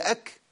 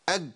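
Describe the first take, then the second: First: The consonant is breathy with air escaping. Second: The consonant is voiced with the breath held. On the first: The speaker calls it right. "لازم الكاف المتحركه تاخد همس" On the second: The speaker calls it wrong. "بنسمع ناس بتقول اكبر اج"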